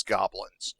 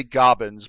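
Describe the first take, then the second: First: Said in the usual way. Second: "goblins" said as GOB-inz, no L; childish mispronunciation. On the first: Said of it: "you know he means goblins". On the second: Shown as a demonstration. Quoting the kobold's slip, "goblins" as gobbins. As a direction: drop the L from "goblins". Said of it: "he did say goblins".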